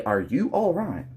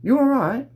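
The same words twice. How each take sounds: First: "Are you alright" said as distinct words; "Are you alright" with the "Are" fully sounded; separate words. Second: "You alright" slurred together as one word, high and loud; British-style "You alright" all in one go; "You alright" as one high, punchy word; run into one word. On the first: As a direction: pronounce "Are you alright" in full, each word apart. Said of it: "They don't say". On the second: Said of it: "they say it all in one word". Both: Shown as a demonstration.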